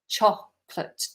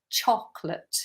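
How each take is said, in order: First: The word is said with two syllables. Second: The word is said with two syllables.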